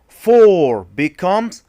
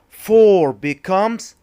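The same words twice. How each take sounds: Both takes have the same delivery.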